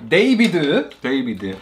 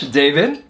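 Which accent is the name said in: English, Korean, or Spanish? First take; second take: Korean; English. First: The name is said with a Korean accent. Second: The name is said with an English accent. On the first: "In Korean, they say"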